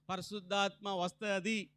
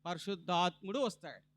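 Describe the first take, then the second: First: వస్తది said with the feminine ending ది; ending ది as the mistake; wrong ending. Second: పరిశుద్ధాత్ముడు వస్తాడు with the masculine ending డు; right ending. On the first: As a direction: say వస్తది the way it should not be said. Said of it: "ది అనకూడదు". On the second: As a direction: stress the డు in వస్తాడు. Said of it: "అది కాదమ్మా". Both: Shown as a demonstration.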